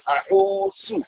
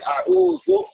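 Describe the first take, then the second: First: The consonant before the last vowel is sin. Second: The consonant before the last vowel is dhal. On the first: The speaker calls it wrong. "they refer to it as sin" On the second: The speaker calls it right. "a'udhu with sal"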